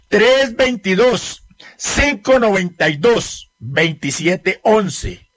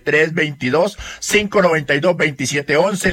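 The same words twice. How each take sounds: First: It is said slowly and deliberately. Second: It is said at a normal, quicker pace.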